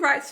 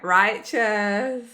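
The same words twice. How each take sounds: First: The word is said in a plain, ordinary voice. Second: The word is said in a drawled surfer voice.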